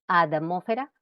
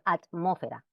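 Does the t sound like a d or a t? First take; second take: d; t. First: The t is voiced like a d. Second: The t is a clear voiceless t.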